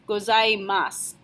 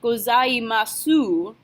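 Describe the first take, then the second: First: The word ends on the s, no final u. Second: The final u after the s is pronounced. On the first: The speaker calls it right. "you don't pronounce the u sound. You're just going to end with your s" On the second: The speaker calls it wrong. "So it's not gozaimasu"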